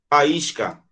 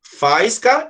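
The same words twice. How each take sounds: First: "faísca" as fa-ÍS-ca, stressed I; separated vowels. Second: "faisca" as FAIS-ca, stress on the A; wrong joined vowels. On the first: Teacher models the hiatus for the class, separated vowels in "faísca". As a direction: say "faísca" with the I parted from the A. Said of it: "Não separou?". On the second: Teacher shows reading without accent, wrong diphthong in "faisca". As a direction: say "faisca" with "fais" as one syllable. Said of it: "se eu não colocar aqui". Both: Shown as a demonstration.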